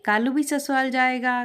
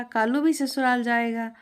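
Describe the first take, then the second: First: Higher, louder chirpy parrot chant. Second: Higher chirpy parrot repeat. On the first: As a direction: squawk it like a happy talking parrot. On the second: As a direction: echo it like a happy parrot. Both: Acted. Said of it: "और फिर बोलने भी लगा". (चहकता तोता)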